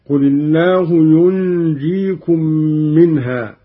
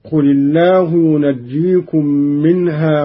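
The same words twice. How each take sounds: First: ينجيكم as "yunjikum", nasal hum on the vowelless nun; light jim. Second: Said in the usual way. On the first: Shown as a demonstration. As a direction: hold the nun of ينجيكم, then a single jim. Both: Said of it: "بإسكان النون وتخفيف الجيم".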